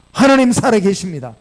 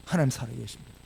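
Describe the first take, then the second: First: Loud, emphatic declaration; loud proclamation. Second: Low, hushed declaration; quiet affirmation. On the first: Preacher declaring faith to the congregation, loud and emphatic. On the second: Preacher restating faith to the congregation, low and quiet. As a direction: affirm it softly, letting it settle. Soft repeat after the loud proclamation. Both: Real, not acted.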